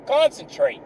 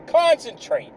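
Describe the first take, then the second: First: Said in the usual way. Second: Concentrate pushed higher, insisting; higher insistent repeat. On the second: Shown as a demonstration.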